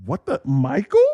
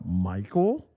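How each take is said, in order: First: Lower, questioning double-take; puzzled recognition. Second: Low, soft questioning call; unsure recognition. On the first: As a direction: imitate a puzzled onlooker spotting someone. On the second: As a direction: imitate someone tentatively checking who it is. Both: Retold or imitated. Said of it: "it kind of like".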